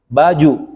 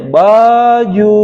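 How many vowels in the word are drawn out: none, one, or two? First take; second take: none; two. First: Both vowels are short. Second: Both vowels are drawn out. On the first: It means shirt. "baju pendek" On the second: It still means shirt. "Panjangin dua-duanya"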